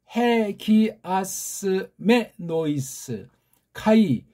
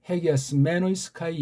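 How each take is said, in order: First: The phrase is read slowly, syllable by syllable. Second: The phrase is read more quickly and smoothly. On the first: "지금 천천히 이제 글자를 봤는데" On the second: "한번 조금 빨라 읽을까요?"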